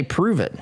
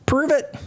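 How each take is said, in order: First: Said in the usual way. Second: Mocking taunt. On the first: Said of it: "and they say". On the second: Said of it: "they're out there saying".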